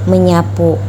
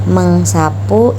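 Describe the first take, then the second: First: The middle has a single 'ny' sound. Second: The middle has an 'ng' sound followed by 's'. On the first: This is the form after the sounds influence each other. "menghasilkan bunyi menjadi menyapu" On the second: This is the form before the sounds influence each other. "Mengsapu itu akan menghasilkan bunyi menjadi"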